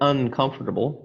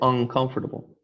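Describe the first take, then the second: First: The first syllable ends with an 'n' sound. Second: The first syllable ends with an 'ng' sound. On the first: The speaker calls it wrong. "we don't say" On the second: The speaker calls it right. "we say"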